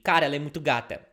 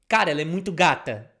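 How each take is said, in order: First: It is said at normal conversational speed. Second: It is said slowly and carefully.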